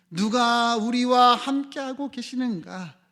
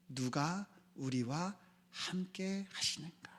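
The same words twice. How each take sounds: First: Loud, slow, raised preaching cry; forceful, high, stretched-out question; emphatic question. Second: Soft, slow, spaced-out question; much softer, deliberate asking; quiet question. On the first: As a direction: proclaim it, drawing out every phrase. Forceful repeat of the soft question. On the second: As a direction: let each phrase sink in, hushed and slow. Preacher asks softly, then repeats forcefully. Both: Real, not acted.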